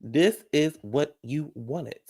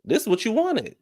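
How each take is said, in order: First: "This is what you wanted" slowly, each word set apart; slow word-by-word rebuke. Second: High, squeaky "This is what you wanted"; high-pitched mocking rebuke. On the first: Acted. Vlogger driving "This is what you wanted" home to the crying contestant, slow and separated. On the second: Vlogger chiding the crying contestant, high-pitched. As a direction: throw it at her in a high voice. Throws his words back at her.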